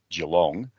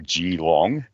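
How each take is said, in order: First: It is pronounced the Australian way. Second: It is pronounced the American way.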